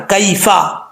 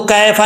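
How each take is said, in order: First: "कैफा" with a clear ay glide, kay-fa; careful Arabic "कैफा", distinct diphthong; correct kaifa. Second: "कैफा" with the diphthong flattened to a long "ae"; mispronounced "कैफा", kae instead of kay; wrong kaifa. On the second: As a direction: say "कैफा" as kae-fa, without the y glide. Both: Shown as a demonstration. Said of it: "अब इसको कैफा नहीं पढ़ना".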